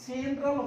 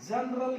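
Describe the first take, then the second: First: जनरल slowly with an e, "jen-ral"; correct जनरल. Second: जनरल with a short a, "jun-ral"; mispronounced जनरल. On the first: Teacher giving learners the right form, जनरल slowly as "jen-ral". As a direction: open जनरल with "jen", stretched. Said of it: "जनरल होता है ये". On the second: Teacher rejecting the common form, जनरल as "jun-ral". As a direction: open जनरल like "jun", Hindi style. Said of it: "जनरल नहीं होता". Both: Shown as a demonstration.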